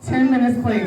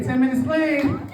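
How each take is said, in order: First: Said in the usual way. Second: "Ten minutes clean" called out to the crowd; called out louder. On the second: Shown as a demonstration. Bragging to the crowd about staying clean, called out. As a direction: sell "clean" like a proud shout-out. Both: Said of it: "Clap it up for me".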